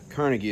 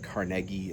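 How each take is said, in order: First: The name is said the common American way. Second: The name is said the Scottish way. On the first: This is the usual local pronunciation. "Carnegie is how it's often pronounced here" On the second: This is the original Scottish pronunciation. "Carnegie is the proper Scottish"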